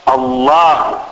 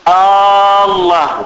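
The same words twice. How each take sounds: First: The first vowel is short, with no lengthening. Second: The first vowel is drawn out into a long 'aa'. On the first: It is a plain statement of the word. The speaker calls it right. "قل مباشرة الله" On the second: It turns the word into a question. The speaker calls it wrong. "هو يدخل يقول الله"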